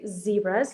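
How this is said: The word is said in an American accent. "The Americans say"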